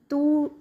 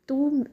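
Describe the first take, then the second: The two takes are said the same way.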